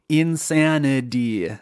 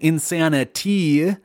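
First: The T is soft and sounds like a D. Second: The T is crisp and clearly released. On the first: This is the casual conversational pronunciation. "you might actually pronounce the D at the end of tragedy the same as the T in insanity, because like I'm doing right now" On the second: This is a careful pronunciation that follows the spelling. "I'm not saying insanity. That's not how I would say it if I was just saying the word conversationally"

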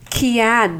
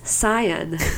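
First: The word begins with a k sound. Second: The word begins with an s sound. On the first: The speaker calls it wrong. "it's not pronounced as Kian" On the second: The speaker calls it right. "it's Cyan"

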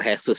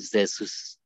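First: The first sound is not like a Z. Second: The first sound is somewhat like a Z. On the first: This is the Spanish pronunciation. "Kalau Jesus itu Spanyol" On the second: This is the Portuguese pronunciation. "Kalau Portugis itu Jesus"

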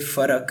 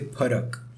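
First: The word begins with an f sound. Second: The word begins with an aspirated p sound. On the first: The speaker calls it wrong. "So you don't say farak" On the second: The speaker calls it right. "You say parak"

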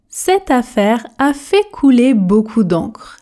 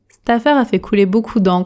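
First: The sentence is spoken very slowly and carefully. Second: The sentence is spoken fast with dropped sounds. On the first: "Version tortue" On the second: "Version express"

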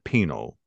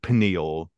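First: It has two syllables, like pee-nal. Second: It has three syllables, like pie-nee-al. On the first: "he pronounces it penal" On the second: "not like pineal"

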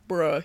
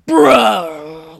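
First: The word is said casually, like a normal word. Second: The word is said over-enunciated, like a sound.

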